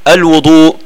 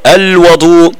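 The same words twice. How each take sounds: First: الوضوء with a rounded u on the waw, wudu; الوضوء with an u sound: elwudu; damma on the waw. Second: الوضوء with an open a on the waw, wadu; الوضوء with an open vowel: elwedu; fatha on the waw. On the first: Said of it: "الوضوء ضمنا الواو". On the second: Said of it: "بفتح الواو". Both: Shown as a demonstration.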